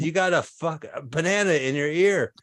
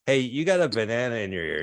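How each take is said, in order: First: Higher, insistent acted exasperation; mock-frustrated attempt to get through; exasperated repeat. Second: Said in the usual way. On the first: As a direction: push it up in pitch, losing patience. Third try, man still not hearing.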